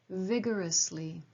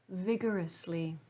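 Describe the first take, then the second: No difference in how they are said.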